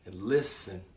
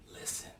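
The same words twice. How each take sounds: First: Said in the usual way. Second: "Listen." softer, almost breathed; hushed repeat. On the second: Shown as a demonstration. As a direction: drop to a hush for the last word.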